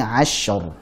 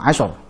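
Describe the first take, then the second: First: The sh sound is held for a moment. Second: The sh sound is cut short abruptly. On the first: The speaker calls it right. "Alirkan dulu sebentar huruf shinnya" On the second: The speaker calls it wrong. "jangan langsung asyar"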